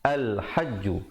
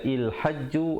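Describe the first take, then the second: First: The first word begins with an a vowel. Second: The first word begins with an i vowel. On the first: The speaker calls it right. "tapi bacalah al hajju" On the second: The speaker calls it wrong. "Jangan kita baca il hajju"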